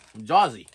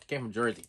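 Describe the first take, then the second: First: Put-on Jersey accent, "Jersey" said as "Jawsey"; hammed-up New Jersey accent on "Jersey"; mock Jersey accent. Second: Said in the usual way. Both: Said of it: "I don't have a Jersey accent".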